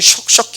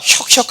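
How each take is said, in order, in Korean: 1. 이 음절은 sh 소리로 시작합니다. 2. 이 음절은 h 소리로 시작합니다. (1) "사람들이 슉슉 해가지고 제 이름을 잘 못하는" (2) "제가 혁혁 할 때마다"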